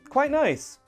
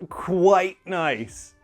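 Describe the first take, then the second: First: Quite is said plainly with no special intonation. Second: Quite is said with strong stress and emphasis. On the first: It is slightly nicer than normal. "Say quite normally, with no special intonation" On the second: It is very nice. "if you stress that word quite, it sounds like a lot"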